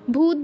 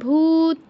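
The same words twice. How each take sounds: First: The first vowel is short and clipped. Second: The first vowel is drawn out long. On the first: The speaker calls it wrong. "ভূত বলে ফেলবো না" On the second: The speaker calls it right. "ভূ দীর্ঘ করে তারপর ভূত"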